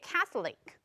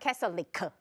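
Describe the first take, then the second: First: The final K is held without audible release. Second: The final K is released with audible sound. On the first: The speaker calls it right. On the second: The speaker calls it wrong.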